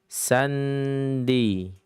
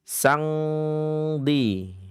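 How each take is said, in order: First: The n is pronounced fully and clearly. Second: The nasal is an ng from the back. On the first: "Maka bukan dibaca dalam keadaan idhar" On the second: "Atau ikhfa ab'ad"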